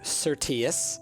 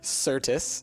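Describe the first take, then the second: First: It has an extra middle vowel, three syllables. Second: It has no middle vowel, only two syllables. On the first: The speaker calls it wrong. "I pronounced it Certius" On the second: The speaker calls it right. "instead of Certus"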